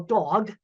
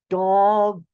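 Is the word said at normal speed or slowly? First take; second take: normal; slowly. First: The word is said at normal speed. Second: The word is said slowly, sounds drawn out.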